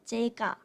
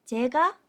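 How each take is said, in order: First: Said in the usual way. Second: Llega said as chega, louder, pitch lifting at the end; rising model word. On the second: Shown as a demonstration. Teacher repeats the Korean word louder, rising at the end. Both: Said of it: "Número uno".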